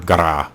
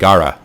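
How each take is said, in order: First: The R is drawn out and rolled. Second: The R is said as a plain R.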